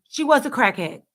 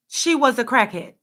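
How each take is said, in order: Both takes have the same delivery.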